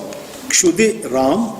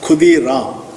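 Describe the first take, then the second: First: The name begins with a 'ksh' sound. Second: The name begins with a 'kh' sound.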